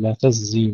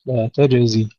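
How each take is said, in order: First: تجزي said as tazzi, J swallowed into Z; wrongly merged jim. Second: تجزي with a clear J before Z; taj-zi, fully articulated J in تجزي; distinct jim and zay. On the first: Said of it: "لا نقول". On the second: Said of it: "تحقيق الزاي وتحقيق الجيم". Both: Shown as a demonstration.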